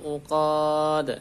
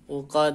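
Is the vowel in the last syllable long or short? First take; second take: long; short. First: The last vowel is drawn out long. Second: The last vowel is kept short. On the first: The speaker calls it wrong. "ini jangan sampai dipanjangkan. Fil uqad. Salah" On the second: The speaker calls it right. "Ini pendek ya. Uqad. Nah, pendek"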